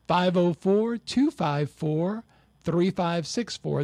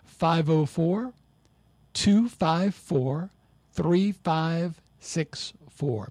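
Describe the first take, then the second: First: The number is said at a quicker pace. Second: The number is said at a slower pace.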